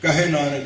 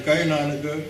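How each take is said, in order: First: ਕਹੇ as ka-he with a clear h; two distinct syllables in ਕਹੇ; contrasted pronunciation. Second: ਕਹੇ as "kai", h dropped; wrong pronunciation. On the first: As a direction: sound the h in ਕਹੇ. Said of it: "ਬੜਾ ਫਰਕ ਪੈਂਦਾ". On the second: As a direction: slur ਕਹੇ into one syllable. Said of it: "ਅੱਖਰ ਗਲਤ ਬੋਲਦੇ". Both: Shown as a demonstration.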